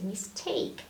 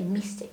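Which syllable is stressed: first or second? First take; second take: second; first. First: The stress is on the second syllable. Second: The stress is on the first syllable. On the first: The speaker calls it right. "we say mistake, is stressed" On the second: The speaker calls it wrong. "we don't say mistake"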